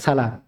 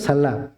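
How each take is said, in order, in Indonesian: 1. Bunyi l-nya pendek dan tunggal. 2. Bunyi l-nya dobel dan ditahan lebih lama. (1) "cuman dua saja yang dibaca salam" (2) "itu di di tasydid salam"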